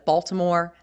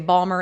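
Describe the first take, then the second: First: It is said in full standard pronunciation. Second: It is said in a clipped Baltimore accent.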